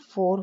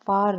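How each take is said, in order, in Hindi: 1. स्वर एक छोटी गोल 'o' ध्वनि है। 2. स्वर एक खुली 'aa' ध्वनि है। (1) "ये भी फोर होगा" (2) "फार नहीं होगा"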